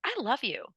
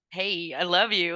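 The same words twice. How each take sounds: First: Genuine. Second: Super sarcastic. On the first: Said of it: "I'm genuinely looking at myself". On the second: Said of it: "like, super sarcastic". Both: Retold or imitated.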